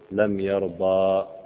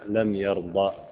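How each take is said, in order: First: The final vowel of the verb is long. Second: The final vowel of the verb is short. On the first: The final letter is kept as if not jussive. The speaker calls it wrong. "ولم نقل لم يرضى" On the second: The final letter has been dropped by the jussive. The speaker calls it right. "ما جئنا لها بمد، قلنا لم يرضى"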